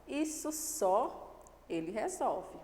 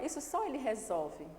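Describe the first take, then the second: First: Isso stressed, slow and deliberate; slow emphatic stress. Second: Só stressed, even plain pace. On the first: Teacher showing students the emphasis on Isso. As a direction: lean hard on Isso, take it slowly. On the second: Teacher giving the students the second reading, stress on só. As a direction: put the weight on só, not Isso. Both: Shown as a demonstration. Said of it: "observe essa entonação daqui".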